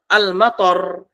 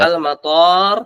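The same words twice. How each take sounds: First: The last vowel is short. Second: The last vowel is long. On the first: It means rain. "pendek artinya hujan" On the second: It means airport. "toknya panjang artinya adalah bandara"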